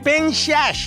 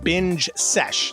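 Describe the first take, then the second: First: It is said in a put-on comic voice. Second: It is said in a plain natural voice. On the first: "all of a sudden I'm Buddy Hackett" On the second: "but that's how you pronounce it"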